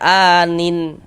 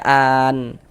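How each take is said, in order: First: The final n is followed by a vowel. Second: The word ends on a silent, vowelless n. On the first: The speaker calls it wrong. "Jangan dibaca anin baru berhenti gitu. Jangan ya, salah" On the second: The speaker calls it right. "Kita baca an"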